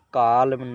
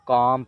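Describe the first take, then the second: First: The L sound is pronounced. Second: The L sound is left out. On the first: The speaker calls it wrong. "इसे काल्म नहीं पढ़ा जाएगा" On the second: The speaker calls it right. "काम पढ़ा जाएगा"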